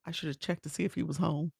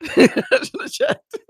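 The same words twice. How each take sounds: First: Said in the usual way. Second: High, slow, laughing repeat; giggling high-pitched self-scolding; laughing squeal. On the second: Real, not acted. Repeats own regret, laughing.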